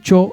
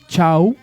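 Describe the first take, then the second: First: It is said in the Callejón de Huaylas form. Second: It is said in the northern Conchucos form. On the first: "cho sería en lo que es eh, Marca, las vertientes y también Callejón de Guaylas" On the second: "chau sería así en provincias como la zona de, la, de, de Sigua, si no me parece, la zona nor, nor con Chucos"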